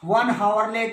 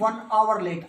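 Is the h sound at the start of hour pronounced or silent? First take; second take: pronounced; silent. First: Hour starts with a pronounced h sound. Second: Hour starts with no h sound. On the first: The speaker calls it wrong. "हावर नहीं होता, ... नहीं" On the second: The speaker calls it right. "आवर H silent"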